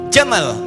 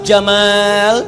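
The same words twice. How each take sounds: First: The second vowel is kept short. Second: The second vowel is held long. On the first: It means camel. "Kalau alif dibuang" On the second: It means handsome. "Jamal pakai alif, ganteng"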